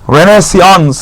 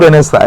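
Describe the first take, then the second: First: The word ends with a final 'ns' sound. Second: The word ends in a vowel sound.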